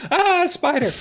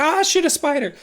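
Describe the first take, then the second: First: High mock Minnesota accent yelp; a hammed-up Minnesota girl shrieking at a spider. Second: Put-on failed Minnesota accent. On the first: Mindy spotting a spider, Minnesota accent. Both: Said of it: "doing Minnesota accents".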